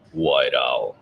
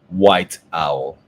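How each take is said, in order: First: It is said in a put-on Batman voice. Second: It is said in a natural speaking voice.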